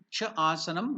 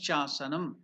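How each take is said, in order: First: The two words are said separately, two vowels. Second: The words merge into one, a single vowel.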